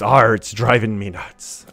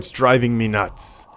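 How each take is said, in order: First: It is said in a put-on pirate voice. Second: It is said in his normal voice.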